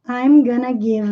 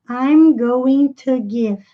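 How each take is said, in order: First: 'Going to' is squeezed into 'gonna'. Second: Each syllable of 'going to' is said fully. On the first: "ou I'm gonna give" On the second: "Nós podemos dizer I'm going to give"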